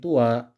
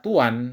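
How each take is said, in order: First: The word ends on a vowel, no n sound. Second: The word ends with an added n sound. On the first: It is the proper name of a specific place. "bila ia dibaca tanpa tanwin" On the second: It refers to a place in general. "Bila dibaca dengan tanwin, maka ia dibaca tuan"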